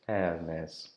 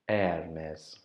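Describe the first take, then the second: Both takes have the same delivery.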